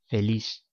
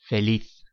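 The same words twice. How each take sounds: First: The final z sounds like an s. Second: The final z sounds like English th.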